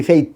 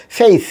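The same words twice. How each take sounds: First: ফেইথ ending in a hard Bengali t-h stop; common mispronunciation. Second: ফেইথ high, ending in a hissed English th; correct final th. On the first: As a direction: cut ফেইথ off on a t. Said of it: "আমরা বলি". (ফেইথ-এর শেষে বাংলা থ) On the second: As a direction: let air out at the end of ফেইথ. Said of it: "সা sound করবো". (ফেইথ-এর শেষে বাতাস ছেড়ে th) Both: Shown as a demonstration.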